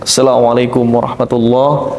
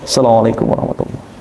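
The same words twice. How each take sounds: First: The greeting is said aloud, clearly audible. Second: The greeting is said quietly, under the breath. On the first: "dijaharkan di awal" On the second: "disirkan yang kedua"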